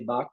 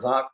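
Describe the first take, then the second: First: The word begins with a B sound. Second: The word begins with a V sound. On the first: "Bengalis will say Bak" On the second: "or V"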